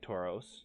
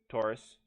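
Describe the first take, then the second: First: It is said like the Pokemon name Tauros. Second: It is said like the zodiac sign Taurus. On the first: The speaker calls it wrong. "I keep saying Tauros, I'm thinking Pokemon" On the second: The speaker calls it right. "I'm almost positive it's Taurus"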